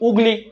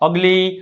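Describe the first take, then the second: First: The word starts with an 'oo' vowel. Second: The word starts with an 'uh' vowel. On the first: The speaker calls it wrong. "નથી થતું" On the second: The speaker calls it right. "અ"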